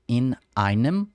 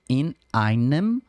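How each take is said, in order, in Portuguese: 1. Uma oclusão glotal separa as duas palavras. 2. Uma oclusão glotal separa as duas palavras.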